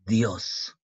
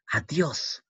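First: "Adiós" broken after the A, with a long pause; "Adiós" in two separated pieces; split into syllables. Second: Said in the usual way. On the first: Shown as a demonstration. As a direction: say "Adiós" as A, pause, then dios in one beat. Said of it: "acá se junta". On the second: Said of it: "se separa".

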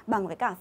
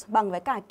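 The two takes are said the same way.

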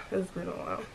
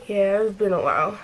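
First: Quiet repeat. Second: Said in the usual way. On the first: Real, not acted. Repeats the phrase to herself.

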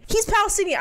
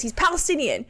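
First: "He's" punched higher, Palestinian falling; stress on He's. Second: Said in the usual way. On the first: Shown as a demonstration. Insisting to viewers about the guest, stress on "He's". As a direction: hit "He's" hard and high.

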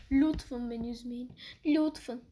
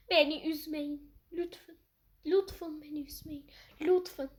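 First: Said in the usual way. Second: Weird pleading voice. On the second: Pretend. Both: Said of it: "Çok garip konuştum ya".

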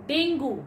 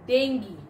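First: Dengue. said as DENG-goo; Dengue. said wrongly, as DENG-goo; common mispronunciation. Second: Dengue. said as DENG-gee; Dengue. said rightly, as DENG-gee; correct pronunciation. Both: Shown as a demonstration.

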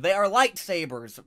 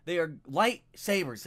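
First: Louder, "are" hit hard; loud correction. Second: Slow, "lightsabers" stressed and falling; slow insistence. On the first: Fan correcting people who say lightsaber, loud insistence. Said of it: "making fun of people that call them". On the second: Fan settling the lightsaber point, slow and firm. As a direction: spell out "They are lightsabers" slowly. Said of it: "making fun of people". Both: Real, not acted.

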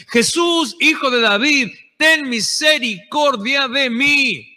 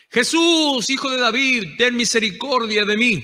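First: Pleading shout. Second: Retold cry for mercy. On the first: Retold or imitated. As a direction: cry out begging for mercy, drawing out the last words. (súplica a gritos, aguda y fuerte, final lento) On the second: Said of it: "Cuando él iba y gritaba".

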